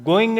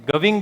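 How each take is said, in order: First: The first vowel is a plain 'oh' sound. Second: The first vowel glides like 'ow'. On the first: The speaker calls it wrong. "गोइंग नहीं बोलते" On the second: The speaker calls it right. "गविंग बोला जाता है"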